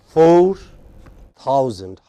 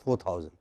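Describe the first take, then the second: First: The number is said slowly with a pause. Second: The number is said quickly without a pause. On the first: The speaker calls it right. "It is four thousand" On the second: The speaker calls it wrong. "it's not four thousand"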